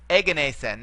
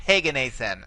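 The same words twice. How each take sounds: First: Said in the usual way. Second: Heganathan with an audible h at the start; added initial h. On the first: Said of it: "we have a smooth breathing mark". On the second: Shown as a demonstration. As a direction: open Heganathan on an h sound. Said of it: "not Heganathan".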